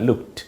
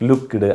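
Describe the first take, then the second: First: The word ends with a t sound. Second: The word ends with a clear d sound. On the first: The speaker calls it right. "അത് വേണ്ട" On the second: The speaker calls it wrong. "നമ്മൾ മലയാളികൾക്ക് കൂടുതലാണ്"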